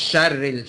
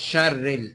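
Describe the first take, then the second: No difference in how they are said.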